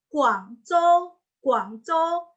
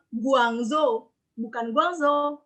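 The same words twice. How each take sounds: First: "Guangzhou" as kuang-chou, slow and higher; Mandarin pronunciation. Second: "Guangzhou" with voiced g and z, as guang-zo; wrong reading. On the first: Teacher modelling the correct city name, Mandarin pronunciation. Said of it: "Karena G". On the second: Teacher quoting the mistaken reading, spelling pronunciation. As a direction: say "Guangzhou" as spelt, drawn out slowly. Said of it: "Bukan Guangzhou". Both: Shown as a demonstration.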